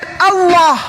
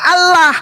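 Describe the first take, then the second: First: It follows Quranic recitation pronunciation rules. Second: It ignores Quranic recitation pronunciation rules. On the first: The speaker calls it right. "Kalau dia pakai kaidah tajwid" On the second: The speaker calls it wrong. "Karena kalian tidak ngerti tajwid ... kalian baca Allah"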